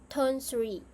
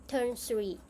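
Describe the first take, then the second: Both takes have the same delivery.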